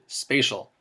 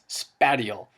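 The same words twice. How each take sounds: First: The first syllable sounds like the word space. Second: The first syllable does not sound like space. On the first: The speaker calls it right. "Notice I pronounced it spatial" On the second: The speaker calls it wrong. "I don't want to hear anybody pronouncing it as spatial"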